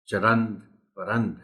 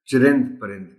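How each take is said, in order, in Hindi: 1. इन शब्दों में 'a' स्वर हैं। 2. इन शब्दों में 'i' स्वर हैं। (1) "इसका दुरुस्त तलफ़्फ़ुज़ चरंद परंद है" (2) "आमतौर पर लोग इसे चिरिंद परिंद के नाम से जानते हैं"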